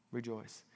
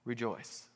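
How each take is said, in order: First: Rejoice, dropped soft and low; softer. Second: Said in the usual way. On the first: Shown as a demonstration. Preacher repeating the key word Rejoice softly. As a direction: breathe the word Rejoice gently. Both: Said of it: "that word is one that you'll be familiar with".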